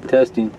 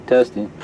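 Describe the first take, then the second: No difference in how they are said.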